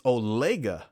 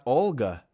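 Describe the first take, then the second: First: The name is said with three syllables. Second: The name is said with two syllables. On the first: The speaker calls it right. "That's how I pronounce it" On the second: The speaker calls it wrong. "we're wrong. It's not, it's not Olga"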